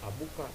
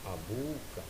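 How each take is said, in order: First: The vowel before ka is short. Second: The vowel before ka is long. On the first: The speaker calls it wrong. "jangan dibaca abuka" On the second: The speaker calls it right. "tambahkan wawu antara bun dan ka"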